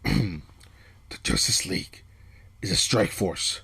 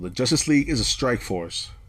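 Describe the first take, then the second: First: It is said in a gruff put-on voice. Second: It is said in a normal speaking voice.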